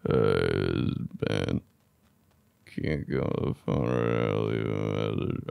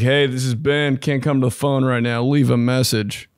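First: The voice sounds slurred and half asleep. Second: The voice sounds normal and alert.

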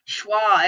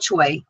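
First: The name is said like 'shwah'. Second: The name is said like 'choy'. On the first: The speaker calls it right. "Schwa is how it's pronounced" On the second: The speaker calls it wrong. "It's not called Choi"

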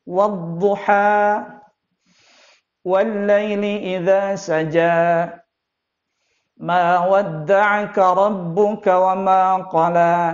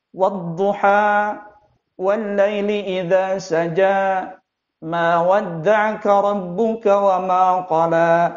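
First: A breath is taken between the verses. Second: It runs on without any breath between verses. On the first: The speaker calls it right. "Seharusnya dia melakukan pergantian nafas" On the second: The speaker calls it wrong. "dia tidak mengganti nafasnya"

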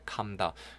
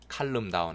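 First: No L sound is heard in calm. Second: An L sound is heard in calm. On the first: The speaker calls it right. "L 발음 안 돼요" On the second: The speaker calls it wrong. "calm down 아닙니다"

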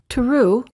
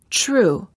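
First: The T before the R sounds like a plain T. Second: The T before the R sounds almost like ch. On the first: The speaker calls it wrong. "Instead of saying true" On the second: The speaker calls it right. "we say true"

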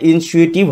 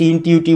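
First: The middle consonant is an S sound. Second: The middle consonant is a T sound. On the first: The NASA host says it this way. The speaker calls it right. "তাদের জানিয়ে রাখি এটা ইনসুয়েটিভ হবে" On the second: Some viewers say it this way. The speaker calls it wrong. "অনেকে আমাদের comment বক্সে লিখেছে ইনটিউটিভ হবে"

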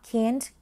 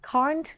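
First: It is said with an American accent. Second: It is said with a British accent. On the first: "ก็จะเป็นแบบ American" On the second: "ก็จะเป็นแบบ British"

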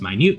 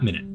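First: The stress is on the second syllable. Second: The stress is on the first syllable. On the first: It means very small. The speaker calls it right. "That was minute" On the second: It means a unit of time. The speaker calls it wrong. "not minute"

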